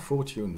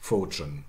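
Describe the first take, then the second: First: The t and y sounds stay separate. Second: The t and y merge into a ch sound. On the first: This is the conservative, upper-class form. "very conservative, very upper class" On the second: This is the normal form.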